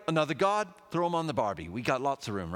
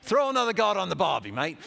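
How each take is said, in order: First: Put-on half-hearted Australian accent; a hint of a bad Australian accent; attempted Australian accent. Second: Loud, high, exaggerated Australian accent; quick, hammed-up Aussie accent. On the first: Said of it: "supposed to be an Australian accent". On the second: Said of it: "it's supposed to be an Australian accent".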